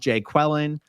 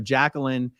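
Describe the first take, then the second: First: The name is split into odd, distorted syllables. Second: The name is pronounced in the usual way. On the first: The speaker calls it wrong. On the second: The speaker calls it right.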